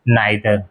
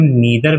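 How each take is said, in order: First: The first vowel sounds like 'eye'. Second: The first vowel sounds like 'ee'. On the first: "यानी नाइदर" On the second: "हम नीदर भी इसे बोलते हैं"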